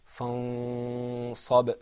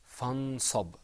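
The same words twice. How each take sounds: First: "fansab" with the n hidden in a long hum; "fansab", long nasalized hum before the s; with ikhfa. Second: "fansab" with the n fully articulated; "fansab", clear n, no hum; without ikhfa. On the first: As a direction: draw out the hidden noon in "fansab". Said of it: "With ikhfa, it's pronounced". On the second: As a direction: sound the noon clearly in "fansab". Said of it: "is pronounced without ikhfa". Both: Shown as a demonstration.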